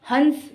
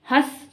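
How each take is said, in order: First: हंस as hans, a full n before s; bindu sound. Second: हंस meant as हँस, hãs with no full n; chandrabindu sound. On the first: Teacher contrasts the two words, हंस with a full n. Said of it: "बिंदी लगी हुई है". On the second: Teacher contrasts the two words, हंस said as हँस. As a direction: go from the vowel of हंस straight into s. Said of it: "चंद्र बिंदु लगा हुआ है". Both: Shown as a demonstration.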